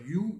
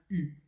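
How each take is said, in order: First: The vowel begins with a y glide. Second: A pure rounded vowel with no glide. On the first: The speaker calls it wrong. "il ne faut pas dire you" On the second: The speaker calls it right. "il faut dire bien u"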